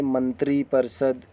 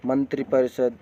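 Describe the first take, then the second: First: मंत्री परिषद with a long ee ending मंत्री; long-ee take of मंत्री परिषद; wrong long vowel. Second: मंत्री परिषद with a short i ending मंत्री; short-i take of मंत्री परिषद; correct short vowel. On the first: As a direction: stretch the final ee of मंत्री in मंत्री परिषद. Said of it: "बड़ी ई की मात्रा नहीं रहेगा". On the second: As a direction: keep the i of मंत्री brief in मंत्री परिषद. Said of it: "छोटी ई की मात्रा". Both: Shown as a demonstration.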